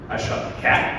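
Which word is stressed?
cat. The stress is on the word cat.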